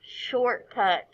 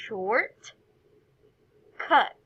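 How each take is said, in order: First: "Shortcut" run together as one word; no pause inside "Shortcut"; "Shortcut" said whole as the final word; joined syllables. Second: "Short", long pause, then "cut"; each half of "Short, cut" said alone; individual syllables. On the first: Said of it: "put those two syllables together". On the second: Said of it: "say each individual syllable". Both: Shown as a demonstration.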